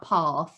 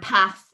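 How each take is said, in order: First: It is said in a southern English accent. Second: It is said in a northern English accent. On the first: "and not path" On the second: "because you say ... path"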